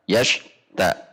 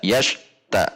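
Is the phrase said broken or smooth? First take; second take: broken; broken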